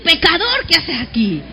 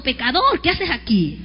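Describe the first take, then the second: First: Louder mock scorn. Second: Mock scornful accusation. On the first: Congregation repeating the taunt to a neighbor, louder scorn. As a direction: repeat it with more scornful force. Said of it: "Vuélvaselo a decir". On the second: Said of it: "Dígale que está a su lado". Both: Shown as a demonstration.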